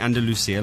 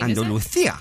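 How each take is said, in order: First: The name is said with an English pronunciation. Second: The name is said with a Spanish pronunciation. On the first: "instead of saying Andalusia, like we would" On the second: "he pronounces everything as it's supposed to be pronounced"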